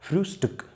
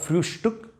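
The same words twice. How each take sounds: First: The middle cluster is said as plain st. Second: The middle cluster is said as sht. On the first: The speaker calls it right. "No sh here, but st" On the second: The speaker calls it wrong.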